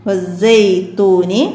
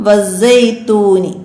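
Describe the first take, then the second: The two takes are said the same way.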